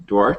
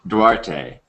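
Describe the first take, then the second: First: "Duarte" said like "Dwart", silent final e; Duarte as one syllable. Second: "Duarte" repeated as "DWAR-tay", final e voiced. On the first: Host checking guest's last name, "Duarte" as Dwart. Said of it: "how you pronounce your last name". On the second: Host echoing guest's correction, "Duarte" as DWAR-tay. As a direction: say "Duarte" ending in "tay", falling. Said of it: "It's Duarte". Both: Shown as a demonstration.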